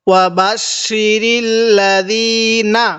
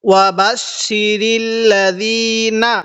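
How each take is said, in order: Both takes have the same delivery.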